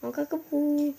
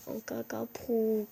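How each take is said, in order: First: Put-on higher, louder baby babble; cutesy baby talk. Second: Put-on slow babyish cooing; cutesy baby talk. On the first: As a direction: squeal it like a toddler. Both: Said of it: "parler comme un bébé".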